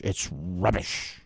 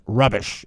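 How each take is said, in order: First: Soft, low, slow mock British accent; a hint of a British accent on rubbish. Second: Said in the usual way. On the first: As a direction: drawl it like a posh Brit. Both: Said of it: "British have a good phrase".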